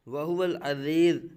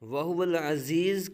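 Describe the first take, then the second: First: The consonant is a soft th-like sound. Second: The consonant is a plain z sound. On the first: The speaker calls it wrong. "ज़ा की जगह पर ज़ाल पढ़ जाते हैं" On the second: The speaker calls it right. "की जगह"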